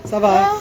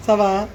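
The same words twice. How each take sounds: First: Playful high. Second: Said in the usual way. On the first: Acted. Teasing the child, repeated.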